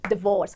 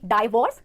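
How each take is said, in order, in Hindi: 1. पहले अक्षर में छोटा 'di' स्वर है। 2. पहले अक्षर में 'dye' वाला डिफ़थॉन्ग है। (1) "डिवोर्स डिवोर्स ना कि डाइवोर्स" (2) "ना कि डाइवोर्स"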